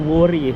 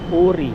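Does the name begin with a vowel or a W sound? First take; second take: W sound; vowel. First: The name begins with a W sound. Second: The name begins directly with a vowel. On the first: The speaker calls it wrong. "Hindi Wori eh" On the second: The speaker calls it right. "Ang pronounce po ng Wori ay Ori daw eh"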